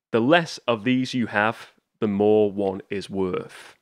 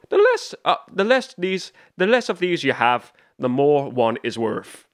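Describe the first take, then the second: First: Said in the usual way. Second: Barry Keoghan. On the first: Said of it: "and he says". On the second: Retold or imitated. Fan imitating the Joker's riddle to Riddler, mock Irish accent. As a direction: have a rough go at an Irish accent. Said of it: "in this Irish accent".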